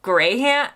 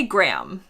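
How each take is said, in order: First: Graham as two syllables, Gray-um; Graham stretched, Gray-um; British Graham. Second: Graham as one syllable, cram; clipped American Graham; Graham like gram. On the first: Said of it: "I'm supposed to say, like". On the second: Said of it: "I say Graham". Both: Shown as a demonstration.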